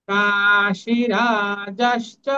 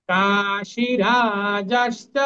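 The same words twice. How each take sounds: The two takes are said the same way.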